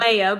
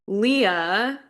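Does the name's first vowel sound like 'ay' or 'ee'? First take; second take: ay; ee. First: The first vowel sounds like 'ay'. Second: The first vowel sounds like 'ee'. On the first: This is the name's proper form. The speaker calls it right. "well like Leia" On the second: This is how a young child said the name. The speaker calls it wrong. "I pronounced it Leah because I was six"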